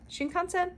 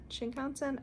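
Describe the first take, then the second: First: Shinkansen tried as a rising question; first guess at Shinkansen with a rising question; unsure pronunciation. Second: Shinkansen tried again, softer, still a question; retry Shinkansen, quieter and unsure; second quieter guess at Shinkansen; second try. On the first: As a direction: try Shinkansen, testing where the stress goes. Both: Shown as a demonstration. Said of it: "where I'm supposed to put the emphasis".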